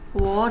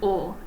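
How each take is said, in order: First: It starts with a W sound. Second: It is a plain o sound. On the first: The speaker calls it wrong. "even though I pronounced it as like wo" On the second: The speaker calls it right. "It's just o"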